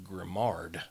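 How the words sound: The name is read with English spelling sounds. "in my, you know, Southern English world is Grimard"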